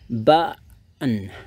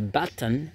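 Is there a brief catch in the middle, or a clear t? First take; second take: brief catch; clear t. First: The middle t is a brief catch in the throat. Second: The middle t is clearly pronounced without a catch. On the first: "kayak berhenti sedikit" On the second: "that's correct. That's completely fine"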